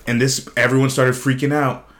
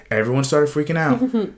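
First: Said in the usual way. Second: "Everyone started freaking out" repeated higher, with stress on "Everyone"; emphatic repeat. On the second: Real, not acted. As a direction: hit "Everyone" harder on the repeat, pitched higher.

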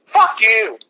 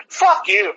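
First: Said in the usual way. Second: Angry shout. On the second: Real, not acted. Ranting at the cops and protesters, shouting. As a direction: bark it out at full blast. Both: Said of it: "I had you at full blast".

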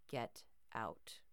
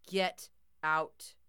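First: Low, cold whisper; cold menacing whisper. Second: Loud, cold command; louder warning. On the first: Bear threatens girl, cold low whisper. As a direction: hiss it as a quiet threat. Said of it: "it sounded cold, almost menacing". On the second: Grandpa's bear warns intruder, loud cold command. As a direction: push the warning harder. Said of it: "louder this time". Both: A narrator's reading.

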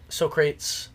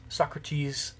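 First: Socrates said as two syllables, "SO-krayts"; mispronounced Socrates. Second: Said in the usual way. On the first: Shown as a demonstration. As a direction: say Socrates to rhyme with "so crates". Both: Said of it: "I've never known how to say it".

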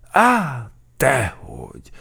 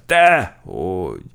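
First: High, loud startled start, falling away; alarmed denial. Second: Loud, drawn-out frightened denial; alarmed denial. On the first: Sergeant accused of gaining weight, alarmed. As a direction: blurt a frightened denial. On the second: Sergeant denying the weight gain, alarmed and emphatic. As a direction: deny it loudly, stretching the word. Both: A narrator's reading. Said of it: "ijedt meg az alőrmester".

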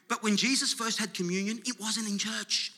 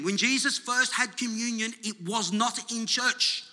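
First: Said in the usual way. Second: "was not in church" drawn out slowly, each word stressed; slow right down and lean on "not"; emphatic repeat. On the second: Shown as a demonstration. Preacher repeating it for congregation, "was not" slow and emphatic. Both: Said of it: "I'm gonna say that again".

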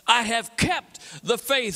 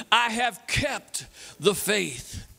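First: Said in the usual way. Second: Very slow, spaced out for all to join; leading the crowd, very slowly together; slow call-and-response. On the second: Shown as a demonstration. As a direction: drag it out so the crowd follows. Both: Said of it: "Say it with me".

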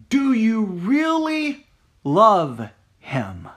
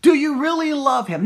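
First: Slow, searching. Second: Higher and louder, pushing the question; pressing harder. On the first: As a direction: stretch the question out slowly, weighing really. Same question asked twice differently. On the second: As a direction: push the question home with force. Same question repeated, pressed harder. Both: Acted.

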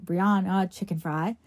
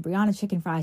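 First: "Brianna Chicken Fry" said slowly, each word clear; slow clear name. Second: Said in the usual way. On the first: Shown as a demonstration. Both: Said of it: "say it after me".

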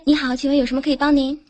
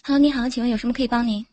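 First: Quick polite hotline greeting; customer service voice. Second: Customer service voice. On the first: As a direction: rattle off the service script fast. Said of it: "来开始". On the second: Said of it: "你来接一下". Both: Pretend.

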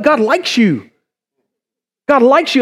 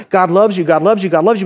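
First: "likes" lifted higher and punched; stress on LIKES. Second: Said in the usual way. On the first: Shown as a demonstration. Preacher tells congregation God likes them, stress on "likes". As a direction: hit the word "likes" as the surprise. Likes set against familiar loves.

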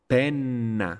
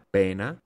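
First: Penna with a long held N, falling; double N. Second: Pena with a short N; single N. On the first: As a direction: linger on the N in penna. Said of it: "Dobbiamo fare una piccola pausa". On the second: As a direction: keep the N light in pena. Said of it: "con una sola consonante". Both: Shown as a demonstration.

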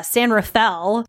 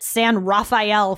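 First: San Rafael slowly, Rafael as ruh-FELL; correct town pronunciation. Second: San Rafael with Rafael as rah-fai-EL; mistaken town pronunciation. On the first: Advising visitors to Marin County, San Rafael said san ruh-FELL. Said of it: "I called it San Rafael for three years". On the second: Confessing a three-year mistake, San Rafael said san rah-fai-EL. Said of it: "nobody corrected". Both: Shown as a demonstration.

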